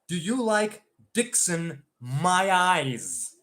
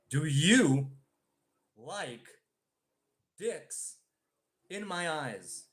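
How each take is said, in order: First: The sentence is said at a fast pace. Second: The sentence is said at a slow pace. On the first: "once again, uh, faster" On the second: "even slower"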